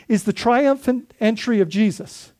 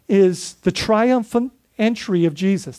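First: Said in the usual way. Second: Slow, with weight on "triumphant" and a falling close; slow emphatic phrase. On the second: Shown as a demonstration. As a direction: lean hard into "triumphant", draw the line out slowly.

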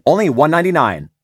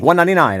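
First: Ad line with a sinus click; punchy tag read, higher and louder; clicky sinus read. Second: Ad tag, relaxed palate, no click; punchy clean tag, higher and louder; relaxed clean read. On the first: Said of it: "I'll be like". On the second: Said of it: "But I wait". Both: Shown as a demonstration.

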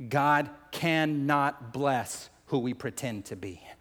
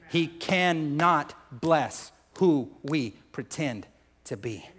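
First: Slow, measured statement of a key point; deliberate preacher's pace, weight on "cannot bless"; slow, solemn emphasis. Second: Very slow, each word set apart; word-by-word emphasis. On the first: Key point, said slowly, then repeated. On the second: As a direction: drive it home, pausing between "cannot", "bless", "who", "we". Repeats key point word by word. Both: Real, not acted.

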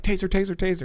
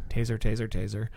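First: Urgent taser call. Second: Calm, quiet, unhurried taser call; mock calm announcement before firing. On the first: Retold or imitated. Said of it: "So you're like". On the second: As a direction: say it flatly calm, no urgency. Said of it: "says it all calmly".

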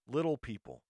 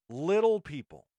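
First: Said in the usual way. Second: "Little people" again, louder and higher, punching "Little"; emphatic repeat. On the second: Shown as a demonstration.

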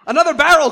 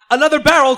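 First: Higher, much louder roar of "Another barrel!". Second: Higher, much louder shout of "Another barrel!"; cry out. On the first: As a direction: roar it out at full force. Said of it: "Quint roared". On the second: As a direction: bellow it in the middle of the struggle. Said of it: "Quint cried out". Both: Acted.

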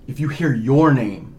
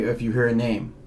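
First: "your" drawn out and louder; stress on YOUR. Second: Said in the usual way. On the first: Real, not acted. Ghost researcher making it personal, heavy stress on "your". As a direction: lean slowly and hard on "your".

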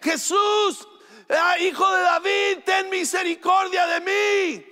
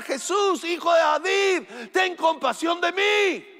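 First: Very high, desperate shout for mercy; grito más fuerte. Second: High-pitched pleading cry; grito suplicante. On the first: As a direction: shout it out to be heard over a crowd. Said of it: "empieza a gritar más fuerte". (grito desesperado, muy agudo) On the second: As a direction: cry out like a blind beggar calling for mercy. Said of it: "él empieza a gritar". (grito agudo de súplica) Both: Retold or imitated.

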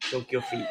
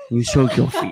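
First: Very high, tiny put-on voice; playful squeak. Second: Loud put-on voice at normal pitch; mock command. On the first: Host teasing co-host about soaking feet, playful high squeak. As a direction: squeak it out as a silly joke. Joking repeat of the foot bit. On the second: Host ordering co-host to soak feet, loud mock command. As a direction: boom it out as a jokey order. Same joke, now loud and low.

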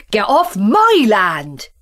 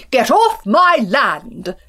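First: Loud slow shout; shouted back. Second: Slow loud farmer's shout. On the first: Farmer Country yelling back at Farmer Town, loud. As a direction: throw the shout straight back. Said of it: "he shouted back". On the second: Farmer Town yelling at his neighbour, loud and slow. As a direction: bellow it at the trespasser. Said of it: "he shouted". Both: Acted.

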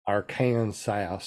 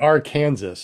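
First: "Arkansas" slowly stretched as AR-kan-sass, lower; drawn-out mispronunciation. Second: "Arkansas" as ar-KAN-zəs; louder, say "Arkansas" with Kansas inside. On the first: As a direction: draw out "Arkansas" syllable by syllable. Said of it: "pronounce the state you live in right". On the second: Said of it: "Or, or is it Ar". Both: Shown as a demonstration.

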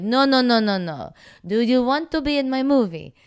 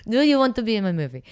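First: Higher, louder hammed-up Italian accent; Italian director accent. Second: Higher, louder mock Italian accent; Italian director accent. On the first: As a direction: insist like an Italian director correcting her. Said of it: "That's better". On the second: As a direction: ham up an Italian director's broken English. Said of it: "That's an excellent Russian accent".

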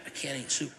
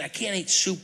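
First: Much softer, flat "I can't eat soup"; quiet pouting "I can't eat soup"; sulky mutter. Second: Indignant stress on "can't"; emphatic complaint. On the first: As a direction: grumble "I can't eat soup" under the breath. Quoting his sulky reply. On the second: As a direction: insist "I can't eat soup" with force on "can't". Insisting he is still mad. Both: Retold or imitated.

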